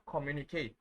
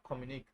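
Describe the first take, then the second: First: Communicate said as "ko-mu-nee-kay", final é sounded; with the accent. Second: Communic said as "ko-mu-neek", last vowel silent; without the accent. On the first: Teacher shows the accented word, communicate ending in a sounded "kay". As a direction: end communicate on an open "kay". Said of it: "because of that sign, that sound". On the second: Teacher shows the unaccented word, communic ending in "neek". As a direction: cut communic off on a hard k. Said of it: "If you don't have this sign". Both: Shown as a demonstration.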